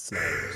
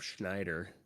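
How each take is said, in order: First: The name starts with an 'sn' sound. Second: The name starts with an 'shn' sound. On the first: The speaker calls it right. "It's Snyder" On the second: The speaker calls it wrong. "not Schneider"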